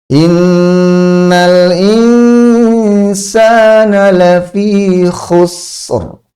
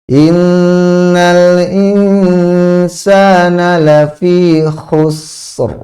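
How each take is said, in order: No difference in how they are said.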